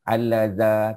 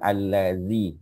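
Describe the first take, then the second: First: The word ends with an 'ah' vowel. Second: The word ends with an 'ee' vowel. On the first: The speaker calls it wrong. "kita tak boleh baca al-laza, tak boleh" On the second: The speaker calls it right. "kita kena baca al-lazi"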